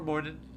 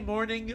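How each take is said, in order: First: The word ends with a shortened 'in' sound. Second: The word ends with a full 'ing' sound.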